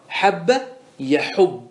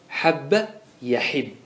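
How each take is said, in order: First: يحب said with damma on the ha, yaḥubbu; يحب with u after the ha, as the rule demands; regular damma form. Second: Slow, يحب said with kasra, yaḥibbu; يحب with i after the ha, drawn out; attested kasra form. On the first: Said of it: "وقاعدة المضاعف المتعدي وجوب الضم". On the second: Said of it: "كسرت". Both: Shown as a demonstration.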